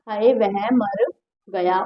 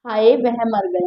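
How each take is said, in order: First: Slow, soft, lower sigh of grief; a lightly acted sorrowful sigh; mock lament. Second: A lightly acted sorrowful sigh; mock lament. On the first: Teacher acting grief over a death, soft and slow. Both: Shown as a demonstration. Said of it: "मैं लिख देती हूँ".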